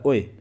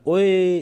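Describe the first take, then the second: First: It is said calmly and short. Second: It is said long and drawn out.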